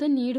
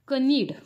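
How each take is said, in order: First: The word starts directly with the n. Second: A k sound is heard before the n. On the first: The speaker calls it right. "फक्त नीड होतो" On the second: The speaker calls it wrong. "कनीड होत नाही"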